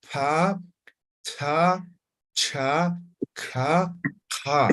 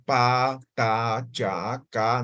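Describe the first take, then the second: First: "pa, ta, cha, ka" with a puff of breath; aspirated. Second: "pa, ta, cha, ca" said plainly, as in Spanish; plain consonants. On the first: Teacher modelling the aspirated series for the class. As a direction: blow out on each syllable. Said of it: "se pronuncia de forma aspirada". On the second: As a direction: model the simple sounds plainly. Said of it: "Cuando digo simple". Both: Shown as a demonstration.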